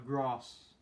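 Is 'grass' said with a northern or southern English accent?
southern. It is said with a southern English accent.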